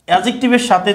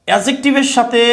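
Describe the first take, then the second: Both takes have the same delivery.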